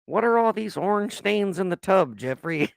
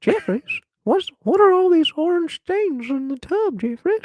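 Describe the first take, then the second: First: Lightly voiced old granny; hint of a nagging grandma. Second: Put-on high, shrill old granny voice; nagging grandma calling out. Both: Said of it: "say this in the grandma voice".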